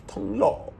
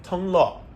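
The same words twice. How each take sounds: First: "Thong Lo" said high with an attempted Thai tone, admittedly badly; bad Thai accent. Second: "Thong Lo" retried high, with a falling "Lo"; second go at a Thai "Thong Lo", pitched up, falling on "Lo"; corrected Thai pronunciation. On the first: Vlogger tries saying the station name "Thong Lo" in Thai, badly. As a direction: try a Thai pronunciation of "Thong Lo", high pitched and off. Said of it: "that was bad accent". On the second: Vlogger retries the station name "Thong Lo" after a bad first attempt. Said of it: "I'm sorry". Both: Shown as a demonstration.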